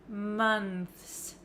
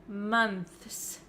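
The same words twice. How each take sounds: Both takes have the same delivery.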